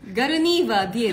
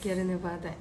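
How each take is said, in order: First: It begins 'garu' and ends in 'die-e'. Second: It begins 'gyaru' and ends in 'dai'. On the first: The speaker calls it wrong. "ガルニーバーディエではないです" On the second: The speaker calls it right. "そうギャルネバーダイ"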